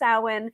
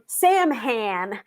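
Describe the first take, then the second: First: It is pronounced unlike its spelling. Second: It is pronounced the way it is spelled. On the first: The speaker calls it right. "it's pronounced Samhain. I know it doesn't look like how it's supposed to be" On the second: The speaker calls it wrong. "a lot of newer witches, ... I was one of them, called it"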